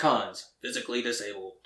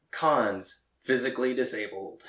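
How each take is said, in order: First: Flat robotic readout again; deadpan machine voice. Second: Flat robotic announcer. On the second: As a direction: read it like a robot. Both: Retold or imitated. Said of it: "and says it like that".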